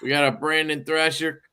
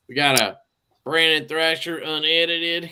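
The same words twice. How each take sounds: First: Said in the usual way. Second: Appalachian twang on Brandon Thrasher; hillbilly accent. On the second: Real, not acted. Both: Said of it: "I don't know why I said that like a hillbilly".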